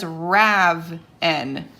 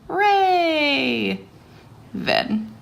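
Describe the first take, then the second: First: The first vowel is short, like 'rav'. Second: The first vowel is long, like 'ray'. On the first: The speaker calls it wrong. "I would pronounce that as" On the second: The speaker calls it right. "Open long sound"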